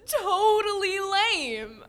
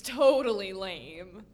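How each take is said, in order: First: High, loud, drawn out with laughter; gleeful agreement. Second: Said in the usual way. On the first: Acted. Girl agreeing with her new skeleton friend, gleeful drawl. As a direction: stretch it out, delighted to be understood.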